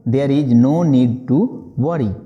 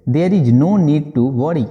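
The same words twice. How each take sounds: First: Slow restatement before explaining; slow repeat. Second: Very slow, word by word; slow model sentence. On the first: Teacher repeating the phrase slowly before translating. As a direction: say it again slowly. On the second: Teacher modelling the English phrase slowly for students. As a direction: spell it out slowly for learners. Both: Shown as a demonstration. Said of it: "बोलेंगे".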